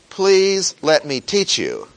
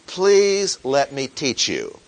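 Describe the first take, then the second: First: Louder, higher pleading; a teacher pleading louder and higher; insistent plea. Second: Said in the usual way. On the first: Acted. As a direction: beg loudly, leaning on please. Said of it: "no matter how much the teacher may say". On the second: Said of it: "the emphasis on the teacher is saying".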